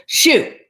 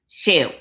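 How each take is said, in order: First: Higher, sharp "shoo"; mad cat. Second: Mimicking echo. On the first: Acted. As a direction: shoo it off crossly. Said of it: "that cat is mad". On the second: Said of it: "when somebody repeats everything you say".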